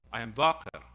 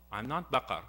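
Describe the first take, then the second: First: "Baqir" lower, as the right name, with an i in the last syllable; corrects the name. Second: "Baqar" said as the wrong name, with an a in the last syllable; corrects the name. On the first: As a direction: calmly set "Baqir" straight, ending in -ir. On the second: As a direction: gently reject "Baqar", ending in -ar. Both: Retold or imitated. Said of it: "He treats him very kindly".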